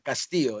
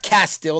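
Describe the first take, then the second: First: The name is said with a Spanish accent. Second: The name is said like English castle. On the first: The speaker calls it right. "Cas with the with you know with some accent there" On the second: The speaker calls it wrong. "not Castillo like a castle"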